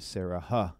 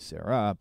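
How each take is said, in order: First: A breathy h sound is added at the end. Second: No breathy h sound is added at the end. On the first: The speaker calls it wrong. "You don't say Sarah, huh" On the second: The speaker calls it right. "You just say Sarah"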